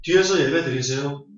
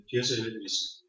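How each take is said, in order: First: Said in the usual way. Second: 뒤에서 예배 드리세요 said much softer, dropping away; soft repeat. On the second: Shown as a demonstration. Preacher repeats advice to the congregation, much softer. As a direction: repeat it as a hushed aside.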